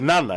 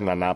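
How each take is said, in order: First: The stress is on the first syllable. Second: The stress is on the last syllable. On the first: The speaker calls it right. "Νάνα, έτσι" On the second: The speaker calls it wrong. "όχι Νανά"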